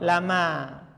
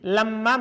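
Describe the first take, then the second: First: The m sound is short and single. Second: The m sound is held long and doubled. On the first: "dibaca apa? Ringan" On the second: "Kalau dibaca berat"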